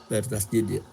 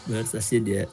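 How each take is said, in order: Both takes have the same delivery.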